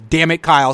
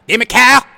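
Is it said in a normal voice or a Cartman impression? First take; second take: normal voice; Cartman impression. First: It is said in his normal voice. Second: It is said in a Cartman impression.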